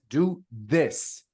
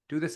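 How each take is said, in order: First: The word 'this' is strongly emphasized. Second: The word 'this' is said flat, without emphasis. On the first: The speaker calls it right. "emphasis on this" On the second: The speaker calls it wrong.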